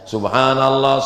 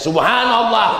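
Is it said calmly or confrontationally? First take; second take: calmly; confrontationally. First: It is said aloud in a calm, ordinary way. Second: It is said pointedly, aimed at someone nearby.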